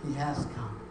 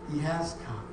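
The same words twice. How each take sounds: The two takes are said the same way.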